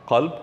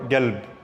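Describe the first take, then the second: First: The word begins with a deep throat q sound. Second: The word begins with a hard g sound. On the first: This is the standard form. "this makes a Qa sound" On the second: This is a dialect form. "or galb"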